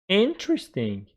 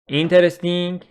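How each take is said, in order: First: The vowel after the stressed syllable is dropped. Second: The vowel after the stressed syllable is pronounced. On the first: The speaker calls it right. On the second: The speaker calls it wrong.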